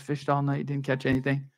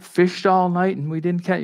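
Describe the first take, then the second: First: Put-on softly sung like a kids' Sunday school tune; sung, children's song. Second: Said in the usual way. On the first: Shown as a demonstration. Preacher quoting the kids' song about the disciples, softly sung. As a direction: sing it gently to children. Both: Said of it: "the song that you teach your kids".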